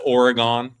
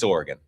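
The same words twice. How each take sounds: First: It is said with a New England pronunciation. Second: It is said with a West Coast pronunciation. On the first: "if you're from New England, it's Oregon" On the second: "when I became a West Coast guy, it's Oregon"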